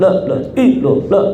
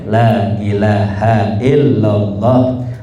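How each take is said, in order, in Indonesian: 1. Suku katanya ditelan, cara membacanya berlebihan. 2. Tiap suku kata diucapkan penuh, dengan tenang. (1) "Jangan kayak yang di TikTok tuh" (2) "Cukup ya"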